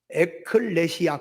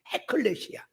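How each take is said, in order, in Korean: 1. 이 단어는 모음으로 바로 시작합니다. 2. 이 단어는 숨소리가 섞인 h 소리로 시작합니다. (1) "연기식이라고 하는 것을 쓰게 되면 에클레시아 그렇게 읽어요" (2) "강력한 발음을 해요"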